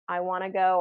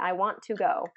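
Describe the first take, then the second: First: "Want to" is blended together into "wanna". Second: Each word of "want to" is said fully. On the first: The speaker calls it right. "It just is very common" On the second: The speaker calls it wrong. "This does sound very robotic"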